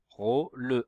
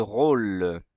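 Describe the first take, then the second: First: RÔ and LE as two separate syllables; syllabes séparées. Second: Said in the usual way. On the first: Shown as a demonstration. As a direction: split "Rôle" into rô, le, sounding the final e. (« Rôle » découpé, e final prononcé) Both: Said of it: "remettre les syllabes dans l'ordre".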